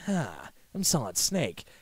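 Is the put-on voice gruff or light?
gruff. It is said in a gruff, deep put-on voice. This is how the real hero sounds. The speaker calls it wrong. "Except he doesn't sound like that"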